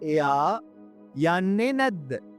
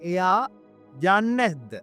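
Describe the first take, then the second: First: The last two words are said separately. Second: The last two words are run together. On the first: "அப்படி வரும்" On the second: "இப்ப சேர்த்து சொல்ல"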